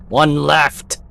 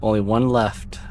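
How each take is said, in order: First: Loud, raised urgent call; higher, forceful shout; yelling. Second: Said in the usual way. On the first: Acted. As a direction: yell ONE LEFT at the player. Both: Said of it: "Just stop yelling at me".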